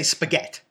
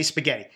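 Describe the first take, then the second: First: "spaghetti" said as "spaghet", final vowel dropped New York Italian style; dropped ending. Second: "spaghetti" with every syllable, final "ee" said clearly; full ending. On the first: Mocking how the show's cast says it: "spaghetti" as "spaghet". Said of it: "we don't drop that". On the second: Showing how Boston Italians say it: "spaghetti" with the final "ee". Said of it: "We say spaghetti". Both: Shown as a demonstration.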